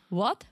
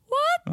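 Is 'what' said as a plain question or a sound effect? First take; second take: question; sound effect. First: It is said as an ordinary question. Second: It is said as an exaggerated sound effect. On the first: The speaker is asking something. "Question would be like" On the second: The speaker is reacting, not asking. "And I'm saying"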